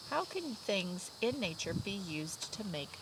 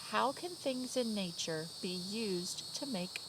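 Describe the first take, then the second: No difference in how they are said.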